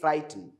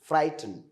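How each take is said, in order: First: The final E vowel is nearly silent. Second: The final E vowel is nearly silent.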